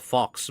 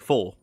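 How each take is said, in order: First: It is said like the English word fox. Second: It is said with a French vowel, no x. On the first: The speaker calls it wrong. "in regular English you call it fox" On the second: The speaker calls it right. "in French it's actually faux"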